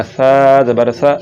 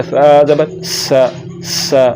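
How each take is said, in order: First: Whistle-free सा. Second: सा with a hissing s; sharp seen sound on सा; wrong whistled S. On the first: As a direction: keep सा lisped, like "tha". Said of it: "बगैर सीटी के". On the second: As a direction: whistle the s in सा as the mistake. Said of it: "ये सीन पढ़ा जा रहा है". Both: Shown as a demonstration.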